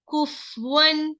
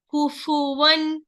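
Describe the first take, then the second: First: The f has no vowel after it. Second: The f is followed by a short 'u' vowel. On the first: The speaker calls it wrong. "they giving the sakin for the fa. That is wrong" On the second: The speaker calls it right. "Dhamma is here, so you must say kufu"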